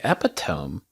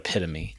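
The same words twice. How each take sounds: First: It is pronounced the way it is spelled. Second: It is pronounced the standard spoken way. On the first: The speaker had only seen the word in print. The speaker calls it wrong. "First time I saw that written, I was like, epitome?" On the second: The speaker knows how the word is really said. The speaker calls it right. "I found out it was the word epitome"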